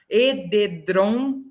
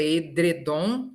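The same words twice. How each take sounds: First: "Edredom" dito e-de-drom, devagar; R transposto. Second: "edredom" com dre no meio; pronúncia correta. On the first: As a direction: jogue o R de "Edredom" para a última sílaba: ededrom. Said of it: "O R sai da última sílaba". ("Edredom" silabado como ededrom) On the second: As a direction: diga "edredom": e-dre-dom. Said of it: "o correto é". ("edredom" com R na segunda sílaba) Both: Shown as a demonstration.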